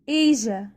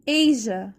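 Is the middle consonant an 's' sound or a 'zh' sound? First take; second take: zh; zh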